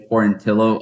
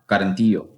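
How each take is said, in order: First: The double L is said as an L sound. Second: The double L is said as a Y sound. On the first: This is how everyone has been saying it. "not hear them say Quarantillo" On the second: This follows the usual reading for a Latin name. "with the two L's together, ... usually Latin descent"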